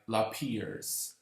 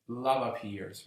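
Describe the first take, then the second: First: It is said as one merged word. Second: It is said as two separate words. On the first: "I prefer to pronounce it like lappears" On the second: "the official pronunciation um, is love appears"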